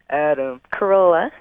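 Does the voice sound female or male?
male. It is said in a male voice.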